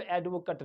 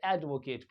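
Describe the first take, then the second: First: "एडवोकेट" ending in a short 'kuht'; "एडवोकेट" with a reduced last vowel; wrong verb ending. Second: "एडवोकेट" ending in a long 'kayt'; "एडवोकेट" with a full 'ay' last vowel; verb pronunciation. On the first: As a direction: say "एडवोकेट" as AED-vo-kuht, like "cut". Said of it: "वहाँ पे एडवोकेट नहीं पढ़ते". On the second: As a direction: say "एडवोकेट" as AED-vo-kayt, like "Kate". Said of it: "वहाँ पे एडवोकेट पढ़ते". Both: Shown as a demonstration.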